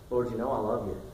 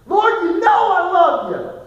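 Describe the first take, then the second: First: Said in the usual way. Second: High, loud, slow pleading cry; anguished cry. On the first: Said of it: "Peter's answer, first take". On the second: Acted. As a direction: cry it out as if your heart breaks. Peter's anguished third answer.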